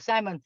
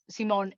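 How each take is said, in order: First: The name is said with American English sounds. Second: The name is said with German sounds. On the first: The speaker calls it wrong. "I'm pronouncing it in the American way" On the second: The speaker calls it right. "Simon in, in German"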